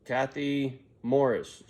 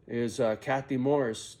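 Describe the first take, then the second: First: Slow drawn-out store announcement; loudspeaker page. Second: Said in the usual way. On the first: Retold or imitated. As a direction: call the name like a store intercom. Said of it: "They get on the loudspeaker". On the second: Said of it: "Over the overhead speaker".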